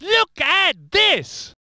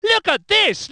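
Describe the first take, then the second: First: High, drawn-out cry; slow, emphatic commentator shout; amazed exclamation. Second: High, brisk call to look; quick commentator exclamation; excited exclamation. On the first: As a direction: stretch each word in astonishment. Commentator exclaims, stretched take. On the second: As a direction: point out sudden action to viewers. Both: Acted.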